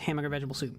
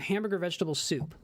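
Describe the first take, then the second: First: The words are run together and slurred. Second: Each word is pronounced fully and clearly. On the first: "usually it's just" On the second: "one of the few times I've actually pronounced it"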